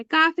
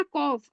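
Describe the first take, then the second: First: काफ with a thin, ordinary front k; light kaf. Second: कॉफ with a full, rounded "qof" sound, not a light k; thick back-of-throat qaf. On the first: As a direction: say काफ lightly with an open "aa", as the mistake to avoid. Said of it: "काफ नहीं पढ़ना है". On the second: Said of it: "आपको मोटा पढ़ना है". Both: Shown as a demonstration.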